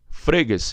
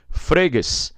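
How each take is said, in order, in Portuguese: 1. O acento está na primeira sílaba. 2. O acento está na primeira sílaba.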